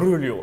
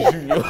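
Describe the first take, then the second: First: The first sound is a soft J sound. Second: The first sound is a throaty R sound. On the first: The speaker calls it wrong. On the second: The speaker calls it right.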